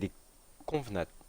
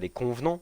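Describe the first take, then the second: First: The word ends with a final t sound. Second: The word ends without a final t sound. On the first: This is how the name should be said. The speaker calls it right. "c'est les convenantes" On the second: This is how the dubbed trailer said it. The speaker calls it wrong. "c'est pas les convenants"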